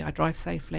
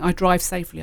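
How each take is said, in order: First: Much softer repeat, said to herself; soft affirmation. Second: Said in the usual way. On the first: Shown as a demonstration. Driver quietly repeating a calming affirmation to herself, soft. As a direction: drop to a quiet self-assurance. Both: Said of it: "if I'm driving".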